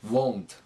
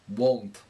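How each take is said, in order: Both takes have the same delivery.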